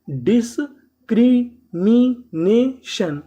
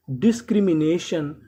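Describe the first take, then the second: First: discrimination stretched very slowly, syllable by syllable; slow teacher model. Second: Said in the usual way. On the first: Shown as a demonstration. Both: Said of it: "discrimination का मतलब".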